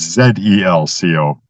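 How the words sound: The first letter is said non-American-style, as zed.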